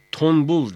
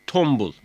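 First: "Tombul" with n in place of m; wrong N sound. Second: "tombul" with m before the b; assimilated M sound. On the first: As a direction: say "Tombul" as tonbul. ("Tombul", m yerine n ile) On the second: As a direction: say "tombul" with lips closed on m. ("tombul", m sesiyle) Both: Shown as a demonstration. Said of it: "Tombul değil, tombul".

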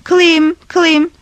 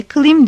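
First: Loud, high call into the dark forest. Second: Name coming back as a distant echo; forest echo. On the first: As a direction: shout the name into the woods. Calling the driver in the forest. (ormanda yüksek sesle seslenme) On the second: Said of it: "Yankı sesi de diye cevap verdi". (yankı gibi uzaktan dönen ses) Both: A narrator's reading.

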